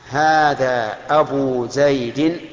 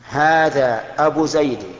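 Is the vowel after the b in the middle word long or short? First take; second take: long; short. First: The vowel after the b is long. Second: The vowel after the b is short. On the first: The word is inflected with a long vowel letter. "هذا الإتمام، رفعناها بالواو" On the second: The word is inflected with a short vowel. "هذا النقص"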